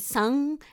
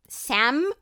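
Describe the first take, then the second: First: It is said with a Brazilian Portuguese accent. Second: It is said with a plain English accent.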